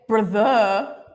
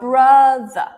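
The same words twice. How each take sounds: First: The second syllable has a full vowel. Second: The second syllable has a reduced uh vowel. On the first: The speaker calls it wrong. "I don't say brother" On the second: The speaker calls it right. "it's brother"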